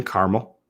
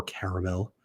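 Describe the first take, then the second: First: "caramel" said as CAR-mul; two-syllable caramel. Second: "caramel" said as CARE-uh-mel; three-syllable caramel. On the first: Streamer describing the smell, "caramel" in two syllables, CAR-mul. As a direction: drop the middle vowel of "caramel": CAR-mul. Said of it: "or do you say caramel". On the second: Streamer offering the other version, "caramel" as CARE-uh-mel. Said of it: "Do you guys say caramel". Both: Shown as a demonstration.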